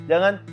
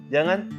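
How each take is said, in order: No difference in how they are said.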